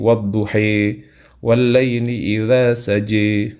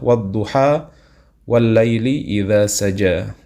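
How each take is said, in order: First: The long vowel in duha leans toward e. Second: The long vowel in duha is a plain a. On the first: This is another authentic reading tradition. "wadduha dibaca miring menjadi" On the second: This is the usual reading in Indonesia. "Hafs dari Imam Asim itu misalkan adalah"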